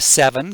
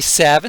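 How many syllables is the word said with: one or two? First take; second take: two; one. First: The word is said with both syllables. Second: The word is said as a single syllable.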